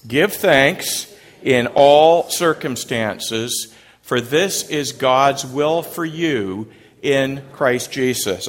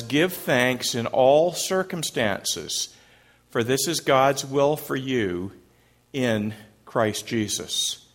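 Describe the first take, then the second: First: Slow, emphatic recitation; recited together. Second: Slow, measured verse reading; scripture reading. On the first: Shown as a demonstration. Pastor leading congregation in unison recitation, slow and emphatic. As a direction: lead the congregation through the verse, slow. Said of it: "Say it with me". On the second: Acted. Pastor reading the verse to the congregation, slow and measured. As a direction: read the verse slowly and deliberately.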